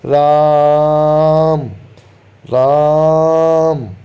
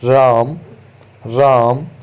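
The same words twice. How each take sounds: First: The name is called loudly with a long vowel. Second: The name is called plainly with a short vowel. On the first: The call reaches a person standing far away. The speaker calls it right. "तेज आवाज़ में और शब्द को खींच के बुलाएंगे" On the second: A person standing far away would not hear it. The speaker calls it wrong. "इस प्रकार से बुलाएंगे"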